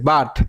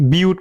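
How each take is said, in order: First: The vowel is a short 'uh' sound. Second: The vowel is a 'yoo' sound. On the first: The speaker calls it right. "তারপরে দেখেন বাট" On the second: The speaker calls it wrong. "ইউ হিসেবে তো বিউট করার কথা ছিল"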